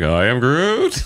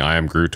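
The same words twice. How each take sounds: First: It is said with exaggerated passion. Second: It is said flatly, without feeling.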